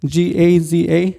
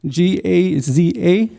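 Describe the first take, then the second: First: Said in the usual way. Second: Letters spelled out slowly, one by one; slow spelling. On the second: Shown as a demonstration. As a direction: spell each letter with weight. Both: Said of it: "and I'll spell it out for you".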